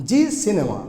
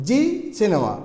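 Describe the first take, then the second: The two takes are said the same way.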